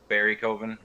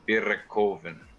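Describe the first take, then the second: First: The name is said the American way. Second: The name is said the German way, rolled R.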